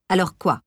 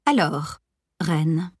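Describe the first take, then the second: First: Short irritated growl. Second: Honeyed, coaxing tone; sugary voice. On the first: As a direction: grumble it back, annoyed. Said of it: "grognai-je". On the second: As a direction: sweet-talk it with a hint of mischief. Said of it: "commença-t-elle d'une voix doucereuse". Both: A narrator's reading.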